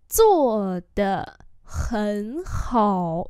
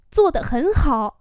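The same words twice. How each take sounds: First: Syllable by syllable; long, drawn-out tones; slow demonstration. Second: Said in the usual way. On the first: Shown as a demonstration. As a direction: model it slowly for learners. Teacher repeats phrase slowly.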